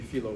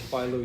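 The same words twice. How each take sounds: First: The name is said with a Greek pronunciation. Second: The name is said with an English pronunciation. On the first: "in Greek it would be philo" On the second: "we say philo Judaeus"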